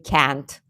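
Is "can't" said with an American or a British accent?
American. It is said with an American accent. "I can't say can't"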